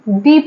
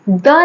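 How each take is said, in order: First: The vowel is a long 'ee' sound. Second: The vowel is a short, weak 'uh' sound. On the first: The next word starts with a vowel sound. "दी pronounce करेंगे" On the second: The next word starts with a consonant sound. "द ना pronounce करके"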